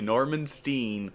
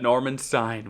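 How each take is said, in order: First: The name's vowel sounds like 'ee'. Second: The name's vowel sounds like 'eye'. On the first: The speaker calls it wrong. "Norman Steen sounds funny" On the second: The speaker calls it right. "would be the correct pronunciation"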